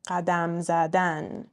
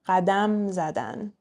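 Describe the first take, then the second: First: The stress falls on the final syllable of the second word. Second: The stress falls on the last syllable of the first word. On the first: It is the infinitive, to walk. "infinitives, last syllable" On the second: It is a conjugated form, they walked. "the non-verb part is going to be stressed on the last syllable"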